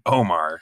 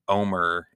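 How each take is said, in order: First: The second syllable has a full 'ar' vowel. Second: The second syllable has a reduced 'er' vowel. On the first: This pronunciation follows the spelling. "despite it being O-M-A-R" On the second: This pronunciation departs from the spelling. "pronounce it Omer instead of Omar"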